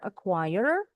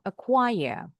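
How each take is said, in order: First: "acquire" with a sounded final R; R pronounced. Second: "acquire" ending in a schwa, no R; R dropped. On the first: Teacher shows students "acquire" with the letter R, final R pronounced. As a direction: end "acquire" on an audible R. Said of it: "pronounce it with the letter R". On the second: Teacher shows students "acquire" without the R, final R dropped. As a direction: leave the final R silent in "acquire". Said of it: "or without the R". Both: Shown as a demonstration.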